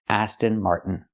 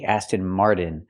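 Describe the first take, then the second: First: The t in Martin is a stopped airflow. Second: The t in Martin sounds like a quick d. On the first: The speaker calls it right. "make it a stop T" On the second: The speaker calls it wrong. "We cannot pronounce it with a fast D"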